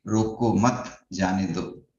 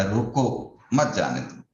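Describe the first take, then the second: First: "रोको मत" said slowly as one phrase, a pause, then "जाने दो"; slow reading, break after "मत" so it means don't stop, let go; phrase "रोको मत" together, pause before "जाने दो"; comma after मत. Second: "रोको" set apart, then "मत जाने दो" run together, stress on "मत"; "रोको" as a command, pause, then "मत जाने दो"; comma after रोको. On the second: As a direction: break after "रोको" so it means stop, don't let go. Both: Shown as a demonstration. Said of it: "comma को इधर से उधर shift करते ही".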